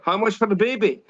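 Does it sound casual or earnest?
casual. It is said casually, without conviction.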